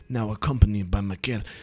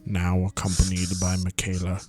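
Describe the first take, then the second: First: It is said without the Snape impression. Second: It is said in an imitated Snape voice.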